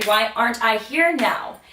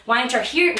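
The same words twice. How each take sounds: First: "here" pressed, then it falls away; heavy, falling "here"; falling question. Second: "here" lifted at the end; questioning rise on "here"; rising question. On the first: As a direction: drop the line after "here". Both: Retold or imitated.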